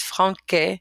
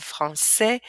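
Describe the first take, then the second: First: "franquet" with a hard K in the middle; wrong hard-K pronunciation. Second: "français" with an S sound for the ç; soft-S pronunciation. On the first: Teacher showing French word without its cedilla, hard K. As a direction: say "franquet", K sound replacing the S. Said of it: "this word would be pronounced". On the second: Teacher showing French word with its cedilla, soft S. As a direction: say "français" as fran-say. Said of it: "but with it". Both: Shown as a demonstration.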